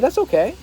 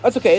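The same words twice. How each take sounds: First: It is said in a warm, kind tone. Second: It is said in a dismissive, offhand tone. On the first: The speaker genuinely understands. The speaker calls it right. "Be like, yeah, that's okay. It's the tonality" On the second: The speaker doesn't really care. The speaker calls it wrong. "You can't be like, ... Don't be dismissive"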